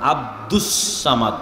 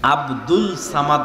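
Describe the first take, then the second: First: The first word ends with an s sound. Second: The first word ends with an l sound. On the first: The speaker calls it right. "আব্দুল নয়, আব্দুস Samad" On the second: The speaker calls it wrong. "আব্দুল Samad নয়"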